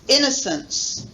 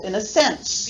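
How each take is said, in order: First: The main stress is on the first syllable. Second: The main stress is on the third syllable. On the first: "main stress on the first one" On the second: "main stress on the third syllable"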